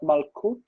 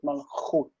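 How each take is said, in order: First: The middle consonant is a hard k sound. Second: The middle consonant is a soft ch sound. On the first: The speaker calls it wrong. "not malkut" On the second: The speaker calls it right. "with a soft sound"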